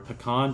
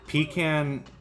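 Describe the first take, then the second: First: The word is said in the fancier, refined way. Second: The word is said in the southern, traditional way. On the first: It sounds refined. "just sounds fancier" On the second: It sounds traditional. "sounds like more southern and more traditional"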